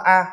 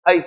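First: "A" said as open "ah"; French letter name. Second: "A" said as "ay"; English letter name. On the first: Teacher comparing languages, French "A" as "ah". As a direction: read "A" the French way, "ah". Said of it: "tiếng Pháp các em đọc nó là A". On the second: Teacher comparing languages, English "A" as "ay". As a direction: read "A" the English way, gliding "ay". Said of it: "tiếng Anh em đọc nó là". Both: Shown as a demonstration.

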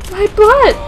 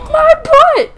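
First: High, loud cry; high exclaimed complaint; mock distress. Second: Extremely high, loud shriek; squealed panicked yelp; frantic mock distress. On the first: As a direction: yelp it loudly. Cry at game injury. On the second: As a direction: shriek it at the top of the range. Repeated cry, higher.

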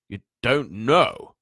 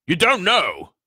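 First: Slow, loud, rising disbelief; stunned giant. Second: High, loud falling exclamation; astounded giant. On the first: Giant realises the boy is unaware, stunned. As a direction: let it climb like a question. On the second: Giant takes in the boy's ignorance, astounded. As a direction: cry it out in utter disbelief. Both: A narrator's reading.

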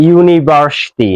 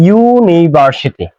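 First: ইউনিভার্সিটি drawn out slowly, starting with ইউ; vowel-first demo. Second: ইউনিভার্সিটি said slowly, opening on a clear ইউ sound; vowel-first demo. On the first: Teacher repeats ইউনিভার্সিটি slowly for students, ইউ first. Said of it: "আমরা প্রথমে বলি ইউ, right?". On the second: Teacher slowly models ইউনিভার্সিটি for students, opening ইউ. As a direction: stretch out ইউনিভার্সিটি so the ইউ start is heard. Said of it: "এই শব্দটা উচ্চারণ করার সময় আমরা প্রথমে বলি ইউ". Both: Shown as a demonstration.

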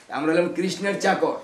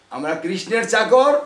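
First: Said in the usual way. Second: আমরা কৃষ্ণের চাকর, louder and slow, leaning on চাকর; emphatic proud declaration. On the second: Shown as a demonstration. Preacher repeats the slogan to the devotees, loud and emphatic. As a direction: proclaim it slowly and proudly.

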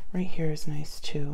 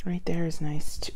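First: Said in the usual way. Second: Whispering. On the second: Real, not acted. Whisper to self.

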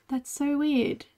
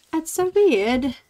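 First: Said in the usual way. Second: Put-on playful accent, WEIRD drawn out; slow, louder put-on accent on "weird". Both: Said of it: "I don't know where that came from, that accent".

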